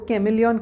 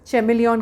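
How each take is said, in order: First: The word begins with a 'k' sound. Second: The word begins with a 'ch' sound. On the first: "the word is कैमिलियन" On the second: "इसे कुछ लोग चेमिलियन भी pronounce करते हैं।"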